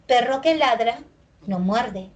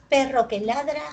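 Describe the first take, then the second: First: Full refrán with falling close on no muerde; finished sentence. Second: Perro que ladra held level, unfinished; incomplete sentence. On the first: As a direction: complete the saying, fall at the end. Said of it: "qué queda sobreentendido". (el refrán completo, final descendente) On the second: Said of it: "lo dije incompleto". (tono horizontal, frase incompleta) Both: Shown as a demonstration.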